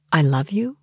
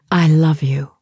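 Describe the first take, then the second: First: "I love you" rising at the end on "you", as a question; "I love you" questioning, tune rising on "you". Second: "I love you" as a firm statement, falling at the end; "I love you" stated, stress on "I", falling tune; stated firmly. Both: Shown as a demonstration. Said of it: "The question mark changes the whole meaning".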